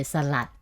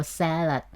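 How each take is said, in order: First: Salad as "sa-LAT", second syllable stressed; Thai-style salad, weight on the last syllable; Thai pronunciation. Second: Salad with the first syllable stressed, English style. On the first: Contrasting Thai speech with English, salad stressed on the end. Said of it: "we say salad". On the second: Second example of English stress, salad stressed on first syllable. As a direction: hit the "sal" of salad, short weak ending. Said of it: "stress on the first word". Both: Shown as a demonstration.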